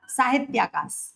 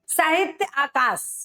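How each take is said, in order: First: It is said fast, run together as one. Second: It is said slowly as two separate words.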